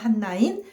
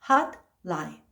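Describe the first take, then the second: First: The middle turns into nasal n sounds. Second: A released t sound is followed by l. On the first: "유음에 비음화를 거쳐서 핫라인" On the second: "외파라니까 hotline 하면 되겠죠"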